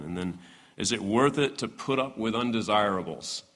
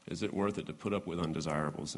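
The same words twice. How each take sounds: First: Said in the usual way. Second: Soft, fast rhetorical echo; quieter repeat. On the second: Shown as a demonstration. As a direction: echo the question softly, quickly. Question repeated.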